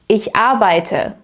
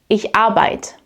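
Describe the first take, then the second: First: The verb keeps its final e sound. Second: The verb drops its final e sound.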